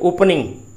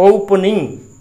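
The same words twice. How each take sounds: First: The vowel after 'p' is a reduced schwa. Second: The same.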